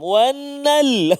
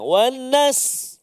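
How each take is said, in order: First: Only the l is heard at the end. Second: Only the s is heard at the end. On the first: "sin juga hilang" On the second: "lam hilang"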